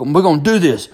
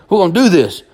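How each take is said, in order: First: Dad insisting, a touch raised; stern father. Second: Repeated "We're gonna do this" pushed higher and louder; stern father louder. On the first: Dad tells crying son they fight, firm. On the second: Dad repeats to son they fight, louder. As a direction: drive it home, hammering the point. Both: Retold or imitated. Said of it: "my daddy walks over and goes".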